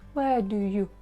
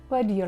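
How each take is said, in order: First: The word 'you' is reduced to a short 'oo'. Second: The word 'you' is reduced to a schwa. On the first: "We say with either u, showing sound u" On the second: "or even with the schwa sound"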